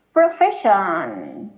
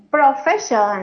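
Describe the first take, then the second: First: "profession" said slowly, lower, each syllable clear; careful model pronunciation. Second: Said in the usual way. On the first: Shown as a demonstration. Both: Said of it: "The correct word to say is".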